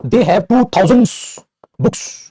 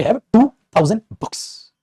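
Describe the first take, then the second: First: थाउजेंड्स drawn out and higher, ending in "s"; slow, raised reading with a clear "s" on थाउजेंड्स; plural S on थाउजेंड्स. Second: थाउजेंड said slowly, ending on "d" without "s"; slow, higher dictation, थाउजेंड with no "s"; no plural S. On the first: Teacher reading out the exam mistake, slow थाउजेंड्स with final "s". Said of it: "थाउजेंड books कौन लिखा दे". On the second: Teacher giving students the answer, slow थाउजेंड without "s". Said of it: "तो क्या बोलोगे". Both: Shown as a demonstration.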